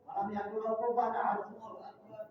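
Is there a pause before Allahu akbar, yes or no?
no. The verse runs straight into Allahu akbar.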